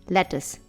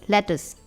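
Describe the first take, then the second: Both takes have the same delivery.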